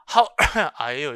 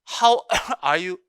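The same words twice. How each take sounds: First: A cough interrupts the middle of the phrase. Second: The phrase flows cleanly without any cough.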